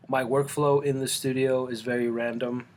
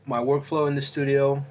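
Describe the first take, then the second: First: Said in the usual way. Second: Talking with a mouth full; words round a bite of banana. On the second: Real, not acted. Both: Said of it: "with my mouth full".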